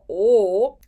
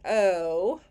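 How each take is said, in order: First: The O vowel has a Minnesota accent. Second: The O vowel has a Pennsylvania accent. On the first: "an O vowel like this, like Minnesota" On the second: "sweet Pennsylvania friends over here saying O"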